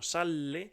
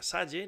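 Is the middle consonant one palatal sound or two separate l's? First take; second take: two l's; palatal. First: The middle has two separate l sounds. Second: The middle consonant is one palatal ll sound. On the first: It is the imperative sal plus the pronoun le. The speaker calls it right. "no sale" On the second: It reads as a different word, not imperative plus pronoun. The speaker calls it wrong. "se pronuncia salle"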